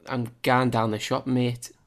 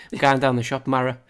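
First: Said in the usual way. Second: "Mara" said in a Cumbrian accent, a touch louder. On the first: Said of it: "No, sorry, I said that wrong". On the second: Shown as a demonstration. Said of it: "what context can I use".

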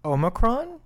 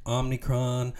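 First: Omicron said clearly as OH-mih-cron, rising; Omicron pronounced. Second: Omnicron with an extra n, OM-nih-cron; mispronounced Omnicron. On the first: Shown as a demonstration. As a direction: pronounce Omicron carefully with a questioning rise. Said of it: "How do you pronounce it?". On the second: Retold or imitated. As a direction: say Omnicron the wrong way people do. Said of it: "but people say".

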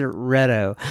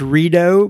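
First: Reto with a short e, REH-toh; name said Reto. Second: Rito with a long ee, REE-doh; name said Rito. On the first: Host tries the Swiss listener's name as REH-toh. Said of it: "maybe you pronounce it Reto". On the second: Reading a listener's name aloud, trying Rito as REE-doh. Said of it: "maybe you pronounce this Rito". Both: Shown as a demonstration.

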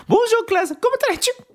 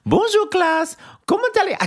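First: Very high, squeaky mock-French teacher; hammed-up French teacher imitation; imitating a French teacher. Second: Very high, mock-French teacher voice; a squeaky French teacher imitation; imitating a French teacher. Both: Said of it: "[name]'s imitation of it".

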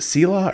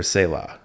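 First: Selah said as SEE-lah; long ee in the first syllable of Selah; alternate pronunciation. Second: Selah said as SAY-lah; ay sound in the first syllable of Selah; alternate pronunciation. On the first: Host asking guest how Selah is said, first option SEE-lah. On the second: Host asking guest how Selah is said, second option SAY-lah. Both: Shown as a demonstration. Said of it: "has pronounced it differently".

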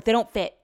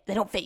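First: "They don't fit" pushed out louder, whiny mock husband; hammed-up gripe, louder the first time; mock complaining. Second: Said in the usual way. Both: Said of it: "totally complaining about these slippers".

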